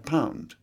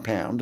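First: The vowel has a British English diphthong. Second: The vowel has an Australian-style diphthong. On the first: The speaker calls it right. "Take the OU sound, which is quite attractive" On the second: The speaker calls it wrong. "it's the Australians come in there"

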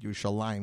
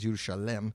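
First: The word ends in a drawn-out 'layim'. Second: The word ends in a short 'lem'. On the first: This is not the artist's pronunciation. "They don't say it Yerushalayim" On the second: This is the artist's own pronunciation. "He says Yerushalem"

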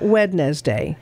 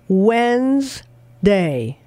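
First: The middle d is pronounced, giving three syllables. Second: The middle d is silent, giving two syllables. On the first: The speaker calls it wrong. "not Wednesday" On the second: The speaker calls it right. "it is pronounced Wednesday"

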